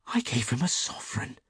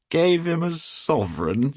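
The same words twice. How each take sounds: First: Higher, hushed confession of horror; dismayed. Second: High, loud, drawn-out disbelief; incredulous shout. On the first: Hughie confessing his gift to a millionaire, faintly dismayed. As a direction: admit it weakly, sinking in dismay. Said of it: "the picture of dismay". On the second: Trevor amazed at his friend's gift, shouting. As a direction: shout it back as a delighted question. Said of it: "shouted Trevor". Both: A narrator's reading.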